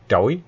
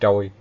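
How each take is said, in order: First: The syllable has a broken rising tone. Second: The syllable has a flat level tone. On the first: This is the correct form of the name. The speaker calls it right. "trỗi chứ không phải trôi" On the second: This is a mistaken form of the name. The speaker calls it wrong. "không phải trôi"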